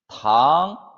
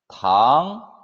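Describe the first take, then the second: The two takes are said the same way.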